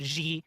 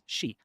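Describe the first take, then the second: First: The name begins without an 'sh' sound. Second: The name begins with an 'sh' sound. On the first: The speaker calls it wrong. "stop saying President Xi or G or whatever" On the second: The speaker calls it right. "It's she, like S H E, she"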